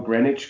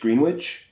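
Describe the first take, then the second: First: The name is said in its usual pronunciation. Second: The name is said letter by letter as spelled.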